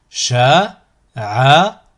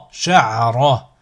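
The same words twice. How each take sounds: First: Slow, each syllable drawn out separately; split into syllables. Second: Syllables joined as one word. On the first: Teacher models a word for learners to repeat, split into syllables. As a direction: cut the word up, pausing between syllables. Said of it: "décomposer le mot". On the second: Teacher models a word for learners to repeat, joined in one go. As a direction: run the syllables together without pauses. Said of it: "ensuite le mot". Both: Shown as a demonstration.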